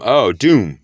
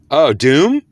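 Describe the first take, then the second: First: DOOM falling as a realization; confirming fall. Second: DOOM rising high as a question; questioning rise. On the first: Accepting the Spirit's word, confirming fall on "doom". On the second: Working out the Spirit's word, questioning rise on "doom". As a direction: lift "doom" upward, checking the word. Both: Real, not acted.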